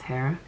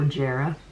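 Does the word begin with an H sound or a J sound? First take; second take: H sound; J sound. First: The word begins with an H sound. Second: The word begins with a J sound. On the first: "but I believe it's pronounced Hera" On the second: "Not like Ron Burgundy with a soft J"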